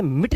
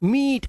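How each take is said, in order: First: मिट with a short, quick "i"; wrong short vowel. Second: मीट with a long, higher "ee"; long vowel. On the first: Teacher showing the misreading to avoid, short-vowelled मिट. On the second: Teacher showing how to read मीट, vowel drawn out. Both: Shown as a demonstration. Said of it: "अब इसे मिट नहीं पढ़ना है".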